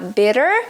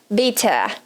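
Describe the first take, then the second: First: The middle consonant is a quick tapped R-like sound. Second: The middle consonant is a strong, clear T sound. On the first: "com o R na ponta da língua" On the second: "o som de T forte"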